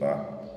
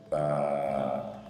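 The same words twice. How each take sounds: First: The vowel is short and clipped. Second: The vowel is drawn out and long. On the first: The letter carries only a short vowel. The speaker calls it wrong. "On ne va plus dire Ba tout court" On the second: The letter is followed by Alif. The speaker calls it right. "le son de cette lettre qui se trouve ici sera tiré"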